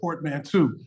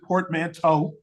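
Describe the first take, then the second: First: The ending does not sound like 'plateau'. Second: The ending sounds like the end of 'plateau'. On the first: "but I like to call it portmanteau" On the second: "some people pronounce it portmanteau because we got the T E A U. It's sort of like plateau"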